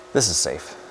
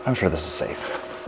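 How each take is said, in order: First: Said in the usual way. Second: Soft, slow, unsure whisper; quiet, half-whispered. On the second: Real, not acted. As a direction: mutter it under your breath, slowly.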